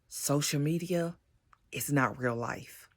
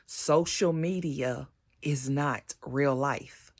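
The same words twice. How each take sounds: First: It is said at normal volume. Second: It is said more loudly.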